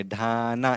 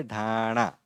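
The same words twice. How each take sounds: First: ढाना ending in an ordinary dental ना; wrong dental n. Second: ढाणा with णा curled back on the palate; correct retroflex n. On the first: Teacher warning learners off this reading, ढाना with dental न. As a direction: keep the tongue forward on the ना of ढाना. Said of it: "इस तरह से नहीं बोलेंगे". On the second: Teacher giving learners the right reading, ढाणा with retroflex ण. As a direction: curl the tongue for the णा of ढाणा. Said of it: "बल्कि क्या बोलेंगे". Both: Shown as a demonstration.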